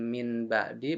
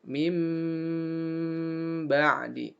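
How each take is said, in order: First: The first word ends in an n sound. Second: The first word ends in a held m sound. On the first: The speaker calls it wrong. "Bukan min ba'di" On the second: The speaker calls it right. "tapi jadi mim"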